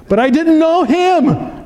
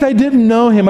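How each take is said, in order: First: KNOW in "But I didn't know Him" high and slow; stressed know. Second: Said in the usual way. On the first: Shown as a demonstration.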